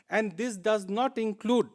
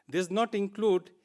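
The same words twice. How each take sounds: First: Not given a firm falling push, a little slow; stress on not. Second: Not pressed again with a falling tune; repeated stress on not. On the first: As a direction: land hard on not, falling. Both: Shown as a demonstration. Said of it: "I repeat".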